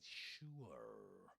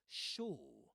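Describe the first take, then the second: First: The vowel glides as a diphthong. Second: The vowel is one steady vowel. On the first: "Sure, he says, right?" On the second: "has been replaced with the monophthong o, and so you'll hear sure"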